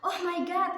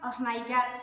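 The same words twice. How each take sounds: First: It is said with lively, surprised intonation. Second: It is said flat, like a robot. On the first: The speaker calls it right. "kan itu kan kaget ya" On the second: The speaker calls it wrong. "kan itu kan kayak robot ya"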